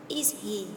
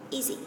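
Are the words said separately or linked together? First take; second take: separate; linked. First: Each word is said separately and in full. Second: The words run together in a reduced form.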